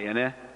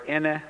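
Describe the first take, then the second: First: The word moves from low to high tone. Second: The word is said on a high tone. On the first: It means a kind of tree. "pronounce it with low high" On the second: It means mother, said politely. "with high tone is mother"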